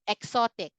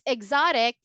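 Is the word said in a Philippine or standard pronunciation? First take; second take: Philippine; standard. First: It has a Philippine English pronunciation. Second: It has a standard English pronunciation. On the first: The speaker calls it wrong. "here in the Philippines, we would say this as exotic" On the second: The speaker calls it right. "it's exotic if you are pronouncing it correctly"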